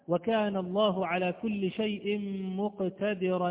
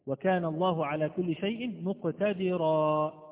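First: The last word ends with an n sound. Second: The last word ends with a long a. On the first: The reading continues into the next verse. "إن وصلناها بالآية التي بعدها" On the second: The reading stops on this word. "إذا وقفت عليها أقف عليها بألف"

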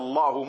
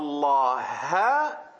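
First: The word ends with a u vowel. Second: The word ends with an a vowel. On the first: God is the one who speaks. The speaker calls it right. "Wir haben jetzt die Dhamma geändert, hu" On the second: God is the one spoken to. The speaker calls it wrong. "zu einer Fatha, ha"

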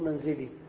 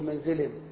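First: The word ends with a lengthened final 'ee' vowel. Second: The word ends without a lengthened final vowel. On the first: The speaker calls it right. "بل تقف وتقول منزلي" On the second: The speaker calls it wrong. "فلا يجوز أن تقول منزل"

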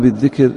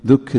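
First: The first syllable has the vowel i. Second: The first syllable has the vowel u. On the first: It means saying something aloud. The speaker calls it wrong. "بالكسر" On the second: It means recalling something in the mind. The speaker calls it right. "بضم الذال"

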